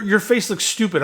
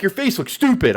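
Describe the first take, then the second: First: Louder, high jeering take; mock Edge taunt, loud. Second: Mock Edge taunt. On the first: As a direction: jeer it loudly. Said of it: "when he say". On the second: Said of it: "when Edge is like".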